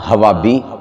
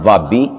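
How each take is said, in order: First: An h sound comes at the start. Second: There is no h sound at all. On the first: "ना हवाबी" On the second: "ना वाबी"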